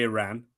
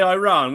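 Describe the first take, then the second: First: "Iran" said as ih-RAN; own pronunciation of Iran. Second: "Iran" said as eye-RAHN; the other's pronunciation of Iran. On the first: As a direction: start "Iran" with a short unstressed vowel, then "ran". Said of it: "We'd say Iran". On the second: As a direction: open "Iran" with "eye" and end on a long "rahn". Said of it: "you'd say Iran, wouldn't you?". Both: Shown as a demonstration.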